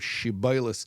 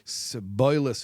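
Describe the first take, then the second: First: The word begins with an sh sound. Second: The word begins with an s sound. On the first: The speaker is from the first tribe. The speaker calls it right. "pronounce the word shiboilis properly" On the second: The speaker is from the other tribe. The speaker calls it wrong. "sh would become s, so they'd say siboilis"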